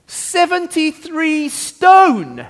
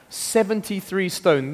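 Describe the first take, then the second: First: "seventy-three stone" much higher, slow and drawn out; dramatic reveal. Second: Said in the usual way. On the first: Acted. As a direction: land the big number with awe. Revealing the record weight.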